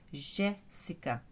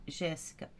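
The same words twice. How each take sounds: First: "Jéssica" slowly split, JÉ held, then ssi-ca; stress on JÉ. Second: Said in the usual way. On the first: Shown as a demonstration. Teacher sounding out a pupil's name, slow "Jéssica" stressed on JÉ. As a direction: stretch the JÉ of "Jéssica", pause, then finish. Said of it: "ó, o Gé". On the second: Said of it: "como que é o nome?".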